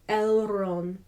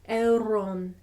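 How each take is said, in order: Both takes have the same delivery.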